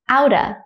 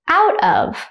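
First: The word 'of' shrinks to a schwa. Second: The word 'of' is said in full.

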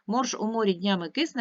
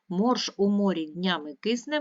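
First: It is read at the quickest pace. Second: It is read at a quicker pace. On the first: "Ще швидше" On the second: "Швидше"

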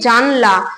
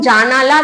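First: No vowel is heard between the n and l. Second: A vowel is heard between the n and l. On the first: "আটা মাঝখানে উঠে যাচ্ছে" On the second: "জানালা থেকে জানলা"

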